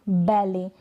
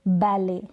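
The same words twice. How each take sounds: No difference in how they are said.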